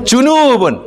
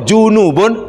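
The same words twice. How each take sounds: First: The second vowel is held long. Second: The second vowel is kept short. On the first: It means sides of the body. "ada waw" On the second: It means ritually impure. "Kalau tak ada waw"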